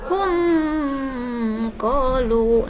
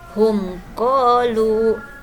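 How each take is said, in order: First: The m is held with a long nasal hum. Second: The m is said clearly without a nasal hum. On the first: The speaker calls it wrong. "tidak boleh dibaca didengungkan ... itu salah membacanya" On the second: The speaker calls it right. "yang benar"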